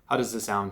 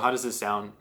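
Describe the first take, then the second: First: Noise cancellation is on, with the bass kept. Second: A low-cut filter removes bass, sounding thinner. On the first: "right now it has N C" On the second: "low cut filter"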